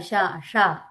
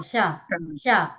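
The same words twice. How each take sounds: First: షా with tongue curled back and mouth open; isolated open షా, falling; open-mouthed retroflex sha. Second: షా with tongue flat and mouth nearly closed; falling, isolated షా, lips kept narrow; closed-mouth palatal sha. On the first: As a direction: say a retroflex షా twice, lower. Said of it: "ఇదేమో open చేయాలి". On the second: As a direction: say a palatal షా twice, separately. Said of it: "మూసే ఉంచాలి". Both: Shown as a demonstration.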